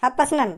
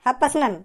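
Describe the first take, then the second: First: It is said fast, squashed into one word. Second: It is said fast, squashed into one word.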